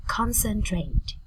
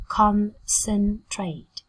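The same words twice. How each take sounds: First: Said in the usual way. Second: "concentrate" slowly in three beats, CON, CEN, TRATE; slow, careful teaching breakdown of "concentrate"; syllable by syllable. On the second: Shown as a demonstration. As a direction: pause between each syllable of "concentrate".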